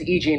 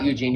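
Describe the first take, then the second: First: The name is said as two separate parts. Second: The name is run together as one word. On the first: This is her actual name. The speaker calls it right. "her name is" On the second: This is not her name. The speaker calls it wrong. "not Eugene. Eugene's not her name"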